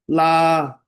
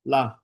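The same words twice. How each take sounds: First: 拉 held long, high and loud; loud, high, sustained 拉; long sound LA. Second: 拉 cut short; short 拉 with no held vowel. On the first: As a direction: stretch 拉 out to show the long vowel. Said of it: "长音，就是". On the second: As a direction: say 拉 as a brief syllable. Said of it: "短的". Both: Shown as a demonstration.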